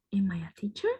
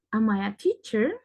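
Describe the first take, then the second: First: Unvoiced, unsure whisper to yourself; doubtful whisper. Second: Said in the usual way. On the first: Teacher doubting she is a teacher, whispering. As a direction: ask it as if you can't believe you're a teacher. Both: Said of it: "Si no soy consciente de que soy maestra".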